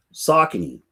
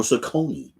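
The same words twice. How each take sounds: First: Saucony said SOCK-uh-nee, stress up front; regional pronunciation. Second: Saucony said suh-KOH-nee, stress in the middle; alternate regional pronunciation. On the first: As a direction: stress the first syllable of Saucony, short middle vowel. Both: Shown as a demonstration. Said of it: "depending where you're from".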